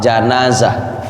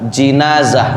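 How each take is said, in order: First: The first vowel is an 'a' sound. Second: The first vowel is an 'i' sound. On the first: "tapi yang abdol patah" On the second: "boleh dibaca jinazah, baris kasroh"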